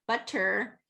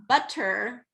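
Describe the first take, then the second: First: The middle consonant is a crisp voiceless T. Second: The middle consonant is a crisp voiceless T.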